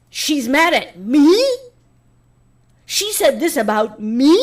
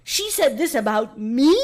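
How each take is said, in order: First: High, loud, drawn-out mock indignation; mocking whiny outrage. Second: High, drawn-out mock indignation; mocking whiny outrage. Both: YouTubers reacting to her clip, mock whiny outrage. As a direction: whine it like an offended YouTuber. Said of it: "a lot of them were like".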